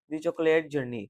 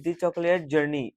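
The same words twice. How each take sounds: First: Said in the usual way. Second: Slow, careful reading of the title; deliberate classroom read-aloud. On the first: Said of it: "title repeated in passing". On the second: Shown as a demonstration. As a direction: read it slowly for the students. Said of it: "teacher reads the title aloud".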